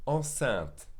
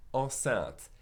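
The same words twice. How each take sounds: The two takes are said the same way.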